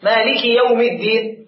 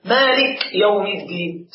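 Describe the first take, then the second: First: مالك said with the كاف carrying its kasra; kaf with kasra. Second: مالك said with the كاف unvowelled, slow; silenced kaf. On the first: Teacher gives the correct مالكِ, slightly slow. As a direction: give the كاف of مالك its i sound. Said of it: "تحتها كسرة". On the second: Teacher shows a minor slip in مالك, slowly. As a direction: stop the كاف of مالك dead, no kasra. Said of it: "سكن الكاف". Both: Shown as a demonstration.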